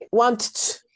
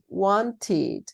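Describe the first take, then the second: First: The final -ed syllable is swallowed and barely heard. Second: The final -ed syllable is fully pronounced as 'id'. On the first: The speaker calls it wrong. "cuando se las tienen que como que tragar" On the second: The speaker calls it right. "tómense todo el tiempo para decirlo"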